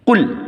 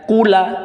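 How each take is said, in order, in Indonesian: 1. Kata itu diakhiri pada huruf l tanpa vokal. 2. Kata itu diakhiri dengan tambahan vokal a. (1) "bunyi lamnya mati menjadi kul" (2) "tidak dibaca kula"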